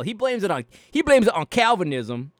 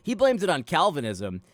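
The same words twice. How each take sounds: First: Loud, badly faked Ruslan KD accent; hammed-up Ruslan KD accent, punching blames; terrible mock Ruslan KD accent, much louder. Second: Put-on Ruslan KD accent retry. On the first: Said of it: "that was a terrible Ruslan K D accent". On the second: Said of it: "I haven't done it in such a long time".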